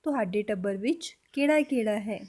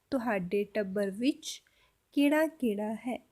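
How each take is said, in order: First: Said in the usual way. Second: Slowly and clearly, for learners; slow repeat. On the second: Shown as a demonstration. Teacher slowly repeating the Punjabi question for students. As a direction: spell the sentence out slowly. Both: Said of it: "तो पूरा sentence कैसे बोलेंगे".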